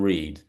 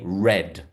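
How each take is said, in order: First: The vowel is long, sounding like reed. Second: The vowel is short, sounding like red. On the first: The action is in the present. "rather than read" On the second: The action happened in the past. "When you're using it in the past tense, you say read"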